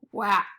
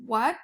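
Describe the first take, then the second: First: "wat" rhyming with cat; sounded-out mispronunciation. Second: Said in the usual way. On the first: Shown as a demonstration. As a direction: say "wat" with a short A, as in at. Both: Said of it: "it is not pronounced wat".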